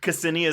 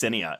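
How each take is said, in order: First: The name begins with a sounded K. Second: The name begins without any K sound. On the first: The speaker calls it wrong. "I did it wrong" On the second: The speaker calls it right. "The K is silent"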